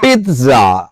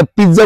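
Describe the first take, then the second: First: পিৎজা with a crisp t, "peet-za"; drawn-out "peet-zaa" for পিৎজা; corrected pronunciation. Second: Said in the usual way. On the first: Shown as a demonstration. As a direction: say পিৎজা as "pit-dzaa", t sounded. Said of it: "এখন থেকে তাহলে কি বলতে হবে". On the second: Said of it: "পিৎজা বলতে পারবো না".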